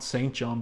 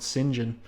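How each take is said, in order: First: It is said as two full words, saint John. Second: It is said blended together as one word. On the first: The speaker calls it wrong. "Not Saint John" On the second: The speaker calls it right. "that's how you pronounce it"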